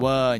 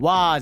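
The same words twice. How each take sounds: First: "わー" shaded toward a central English er; British vowel. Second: "わー" as a wide open Japanese aa; wrong katakana vowel. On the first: Host showing the British vowel, central er in "わー". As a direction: say "わー" as British er, less open. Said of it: "わーじゃなくて、わーになるけど". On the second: Host showing the vowel to avoid, open "わー". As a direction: say "わー" fully open, katakana style. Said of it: "わーじゃなくて". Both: Shown as a demonstration.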